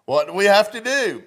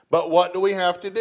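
First: Higher and louder, driving the question home; loud emphatic repeat. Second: Quick, raised challenge to the room; emphatic question. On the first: Preacher pressing the congregation to answer, loud and high. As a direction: call it out to wake them up. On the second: Preacher challenging his congregation, fast raised question. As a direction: push the question out fast and louder. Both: Real, not acted.

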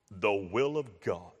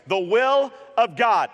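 First: Much lower, hushed, mock-solemn preacher; deep preacher voice. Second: Said in the usual way. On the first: Shown as a demonstration. Preacher showing how the topic is supposedly announced, deepened voice. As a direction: drop right down into a grave pulpit voice. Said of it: "supposed to alter his voice". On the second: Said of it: "I'm supposed to change my voice".

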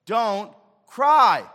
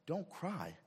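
First: Booming high "Don't cry."; a shouted, stern order; sudden loud command. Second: Said in the usual way. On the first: Acted. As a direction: thunder it out at the mourners. Preacher voices Jesus' command.

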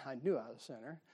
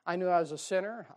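First: Softer, quicker, chuckling through it; laughing. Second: Said in the usual way. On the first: Real, not acted. Preacher laughing at his own lost past, chuckling. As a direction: laugh it off at yourself.

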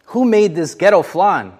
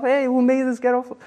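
First: Tactless wisecrack. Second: High, breezy reenactment of the blurt; careless blurt. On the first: Retold or imitated. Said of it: "I opened the refrigerator and I said". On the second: Shown as a demonstration. Preacher replaying his careless flan remark at the party, high and breezy. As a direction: toss it off like you're just being yourself. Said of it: "I just said it like, you know, I'm just being myself".

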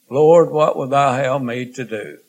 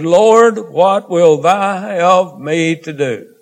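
First: Said in the usual way. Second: A high cry of "Lord", then a slow, drawn-out plea; trembling and astonished. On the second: Acted. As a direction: cry out to the Lord in awe, then ask slowly. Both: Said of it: "And he, trembling and astonished".

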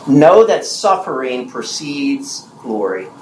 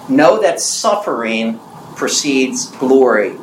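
First: Slow, deliberate sermon point; emphatic teaching point. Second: Slow, deliberate repeat of the point; emphatic teaching point repeated. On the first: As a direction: lay it out slowly word by word. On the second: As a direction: say it again slowly to make it land. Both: Shown as a demonstration. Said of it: "Number two".

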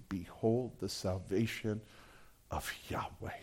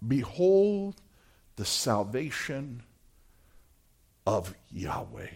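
First: Near whisper, fading out; whispered awe. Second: Soft, slow, awed proclamation; quiet reverent declaration. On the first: Preacher repeats Moses' words to the congregation, whispered. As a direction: breathe the words in wonder. Quote repeated at the sermon's climax. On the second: Moses tells the people to behold salvation, hushed and awed. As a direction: let the words sink in reverently. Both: Acted.

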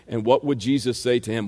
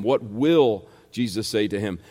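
First: Said in the usual way. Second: "will" leaned on and held, then a brief pause; stress on WILL. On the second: Real, not acted. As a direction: correct yourself by landing firmly on "will". Corrects "would" to an emphatic "will.

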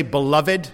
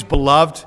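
First: Beloved said as be-LOV-ed, three syllables. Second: Beloved said as be-LOVD, two syllables. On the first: Preacher allowing the older three-syllable beloved. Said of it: "you can pronounce it that way". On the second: Preacher giving his own everyday two-syllable beloved. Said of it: "I use beloved because". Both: Shown as a demonstration.

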